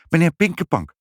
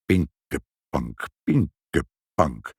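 First: High, quick reply; supply the name brightly at a higher pitch; high-voiced, ready answer; prompt answering mother. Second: Very slow, low mutter; low, drawn-out old man's murmur; muttering Sinterklaas. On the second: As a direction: mull the name syllable by syllable. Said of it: "prevelde Sinterklaas". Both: A narrator's reading.

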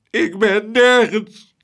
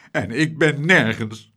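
First: Higher, louder, slow sobbing wail. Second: Said in the usual way. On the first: Acted. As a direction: let the repeat break into a hammed-up sob. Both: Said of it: "snikte meneer Tump".

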